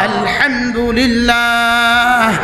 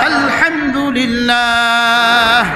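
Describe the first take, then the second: No difference in how they are said.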